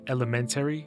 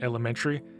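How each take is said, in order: First: Every syllable of the word is fully pronounced. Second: The word is said quickly with reduced syllables. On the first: "if you pronounce it as it's spelled" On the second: "if you say it as a native speaker, it sounds like"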